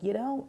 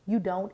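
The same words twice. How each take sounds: First: It is said in a mocking, teasing tone. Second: It is said in a gentle, reassuring tone.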